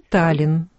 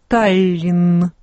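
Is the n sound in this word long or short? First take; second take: short; long. First: The n sound is short and single. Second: The n sound is long and doubled. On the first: The speaker calls it right. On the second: The speaker calls it wrong.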